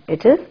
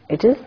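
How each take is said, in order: Both takes have the same delivery.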